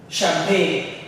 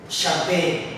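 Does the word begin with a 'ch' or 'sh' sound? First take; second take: sh; sh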